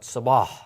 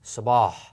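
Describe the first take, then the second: First: The s sound is deep and hard. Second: The same.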